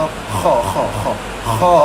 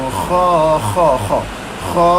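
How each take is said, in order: Both takes have the same delivery.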